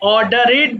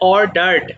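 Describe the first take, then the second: First: The ending is said as an extra syllable. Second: The ending is said without an extra syllable. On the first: The speaker calls it wrong. "অনেকে অর্ডারেড বলে ফেলতে পারো" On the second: The speaker calls it right. "এটা হবে অর্ডার্ড"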